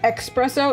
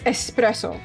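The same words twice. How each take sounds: First: It starts with a KS sound. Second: It starts with a plain S sound. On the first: The speaker calls it wrong. "It's not espresso" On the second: The speaker calls it right. "It's espresso. ... It's S S S"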